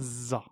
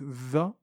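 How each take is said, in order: First: The consonant is a plain z sound. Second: The consonant is a voiced th sound. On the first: The speaker calls it wrong. "et pas un zay" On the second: The speaker calls it right. "c'est un zel ... C'est comme le the de l'anglais"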